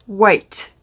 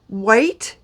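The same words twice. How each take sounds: Both takes have the same delivery.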